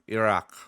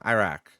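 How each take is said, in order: First: The name is said in a native-like way. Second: The name is said in an anglicized way. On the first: The speaker calls it right. "but it's" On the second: The speaker calls it wrong. "They're always like"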